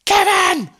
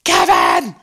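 First: High, loud shriek of the name; mother realizing her son was left behind, shrieking; panicked shout. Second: Low, loud hammed-up yell; mother in an imagined extended scene, low mock bellow; mock shout. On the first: Retold or imitated. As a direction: scream it in sudden horror. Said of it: "realizing it's her son and going". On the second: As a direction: bellow the name in a comic low voice. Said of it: "she goes".

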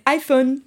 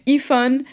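First: "iPhone" with an English "eye", French-tinged; English-style pronunciation. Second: "iPhone" with the I said "ee"; French-translated pronunciation. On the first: Correcting the newcomer's assumption, "iPhone" said with English "eye". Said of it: "but no, they all say". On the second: Newcomer assuming it translates into French, "iPhone" said "ee-fon". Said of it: "they all say iPhone". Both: Shown as a demonstration.

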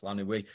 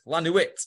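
First: "La Nuit" with a silent t, said low and soft; correct French pronunciation. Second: "La Nuit" ending in a sounded t; mispronounced French. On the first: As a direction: say "La Nuit" as "la noo-ee". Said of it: "He says, It's, oh". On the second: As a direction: say "La Nuit" as "la noo-eet", higher pitched. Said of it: "At first, she says". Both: Retold or imitated.

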